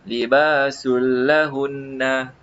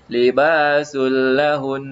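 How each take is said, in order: First: The word ends with a clear na syllable. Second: The word stops on the n with no vowel. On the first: The speaker calls it wrong. "jangan baca libasul lahunna" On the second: The speaker calls it right. "kita kena matikan dia"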